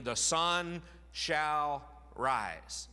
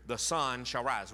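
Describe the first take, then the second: First: "the sun shall rise" drawn out very slowly, each word weighted, "sun" leaned on; slow it right down and lean on "sun"; emphasis on sun shall rise. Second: Said in the usual way. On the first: Shown as a demonstration. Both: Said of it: "you get the emphasis here".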